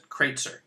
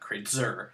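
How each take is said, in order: First: The stress is on the first syllable. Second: The stress is on the second syllable. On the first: The speaker calls it right. "Stress comes on the first syllable of my last name" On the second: The speaker calls it wrong. "not Kreutzer"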